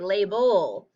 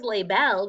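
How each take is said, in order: First: The last syllable has a reduced schwa vowel. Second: The last syllable has a full short e vowel. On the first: The speaker calls it right. "we say label" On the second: The speaker calls it wrong. "No one says label"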